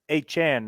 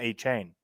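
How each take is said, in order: First: The last syllable sounds like 'chahn'. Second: The last syllable sounds like 'chain'. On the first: The speaker calls it right. "Let's get his name pronounced" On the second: The speaker calls it wrong. "not A-Chain"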